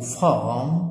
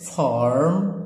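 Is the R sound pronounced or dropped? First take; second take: dropped; pronounced. First: It is said without an R sound. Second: It is said with an R sound.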